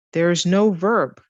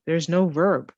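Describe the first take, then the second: First: "no" hit slower and louder; stress on no. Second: Said in the usual way. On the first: Shown as a demonstration. Teacher stresses "no" to make the rule clear. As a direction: lean on the word "no".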